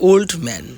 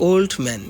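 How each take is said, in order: The two takes are said the same way.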